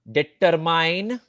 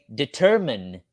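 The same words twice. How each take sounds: First: The word has a nonstandard, non-American pronunciation. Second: The word has its standard American pronunciation. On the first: The speaker calls it wrong. "which is absolutely wrong" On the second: The speaker calls it right. "the correct pronunciation of English words in the United States"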